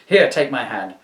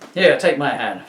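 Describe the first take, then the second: First: It is spoken in the speaker's normal voice. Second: It is spoken in a put-on female voice. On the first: The speaker calls it wrong. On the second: The speaker calls it right.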